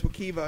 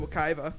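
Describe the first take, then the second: First: The middle syllable sounds like 'kee'. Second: The middle syllable sounds like 'kai'. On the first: This is the original Native pronunciation. The speaker calls it right. "The actual pronunciation of Wakaiva is Wakiva" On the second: This is the common anglicized pronunciation. The speaker calls it wrong. "instead of Wakaiva"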